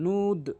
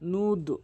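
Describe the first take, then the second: No difference in how they are said.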